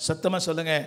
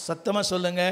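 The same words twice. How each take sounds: The two takes are said the same way.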